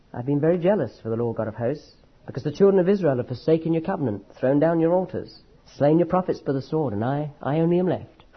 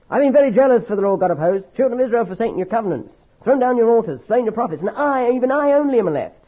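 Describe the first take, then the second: First: Humbled, muffled. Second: High, whining complaint of a sulking prophet; petulant prophet pouring out his grievance; self-pitying complaint. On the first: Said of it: "you notice the way I read them?". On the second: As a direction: read it as a wounded, self-pitying grumble. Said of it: "Do you see how I read it?". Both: Shown as a demonstration.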